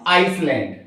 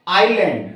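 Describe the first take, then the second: First: आइसलैंड wrongly as "ice-land"; sounded S. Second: आइलैंड as "eye-land"; silent S. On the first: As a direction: say आइसलैंड with the S pronounced. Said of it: "not आइसलैंड". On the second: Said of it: "इसको पढ़ते हैं आइलैंड". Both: Shown as a demonstration.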